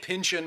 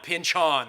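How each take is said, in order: First: The last syllable is a reduced 'in' sound. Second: The last syllable is a full 'on' sound. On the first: The speaker calls it wrong. "I've been saying pinchin my whole life" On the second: The speaker calls it right. "it's the hard on"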